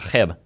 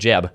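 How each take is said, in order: First: The name begins without a J sound. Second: The name begins with a J sound. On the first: This is the Spanish pronunciation. "My name in Spanish is" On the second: This is the usual English pronunciation. "instead of"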